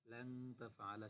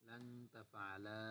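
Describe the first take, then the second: First: Said in the usual way. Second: লান তাফআলা stretched out slowly, every syllable spaced; slow drill. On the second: Shown as a demonstration. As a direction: spell it out slowly for the class. (ধীরে টেনে টেনে লান তাফআলা)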